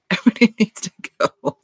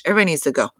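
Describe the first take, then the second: First: Laughing. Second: Said in the usual way. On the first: Retold or imitated. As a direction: repeat it higher and faster through a laugh. Repeats Gigi's line laughing.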